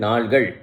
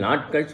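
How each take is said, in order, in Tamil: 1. இறுதி அசைக்கு முன் L ஒலி வரும். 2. இறுதி அசைக்கு முன் T ஒலி வரும். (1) "நாள் கூட்டல் கள் விகுதி சேர்ந்தாக்க நாள்கள் என்று சொல்லணும்" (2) "இந்த இடத்துல நாட்கள் சொல்லக்கூடாது"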